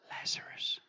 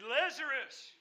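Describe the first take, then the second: First: It is said softly. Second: It is said loudly.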